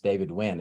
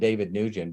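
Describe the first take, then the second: First: The surname is said in a Vietnamese way. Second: The surname is said in an anglicized way. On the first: The speaker calls it right. "It's pronounced as Vietnamese" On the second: The speaker calls it wrong. "I called him David Nugent"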